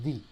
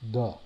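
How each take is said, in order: First: The vowel is a long ee sound. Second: The vowel is a short relaxed schwa. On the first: The next word starts with a vowel. "if it starts with a vowel, then this is pronounced D" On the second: The next word starts with a consonant. "it doesn't. And so I go the"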